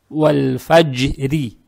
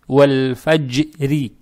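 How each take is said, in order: First: The word ends on a soft r plus i vowel. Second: The same.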